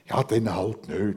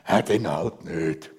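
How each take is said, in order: First: It is said in a plain, neutral tone. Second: It is said with a grim undertone. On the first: Accepting things as they come. "so typisch schweizerisch" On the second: Accepting things while feeling resentful. "Und vielleicht noch mit einem grimmigen Unterton"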